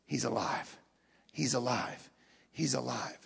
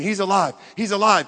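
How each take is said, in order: First: Very low, soft repeated declaration; hushed testimony. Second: Said in the usual way. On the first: Retold or imitated. Martyrs testifying as they die, hushed and low. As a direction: say it quietly, with conviction. Martyrs' dying words voiced.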